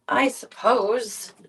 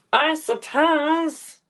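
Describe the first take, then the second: First: Slow reluctant "I suppose"; slow sigh. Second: Very slow, higher, louder grudging "I suppose"; higher mock sigh. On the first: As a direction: drag out a grudging sigh. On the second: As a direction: overdo the reluctance, dragging it out. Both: Real, not acted.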